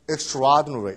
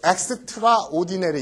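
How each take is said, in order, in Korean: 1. 한 단어로 이어서 발음합니다. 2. extra와 ordinary로 나뉩니다. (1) "그냥 한 단어로" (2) "뭐 extraordinary 이러진 않습니다"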